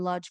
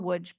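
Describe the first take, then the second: First: The name is said with an English pronunciation. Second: The name is said with a Polish pronunciation.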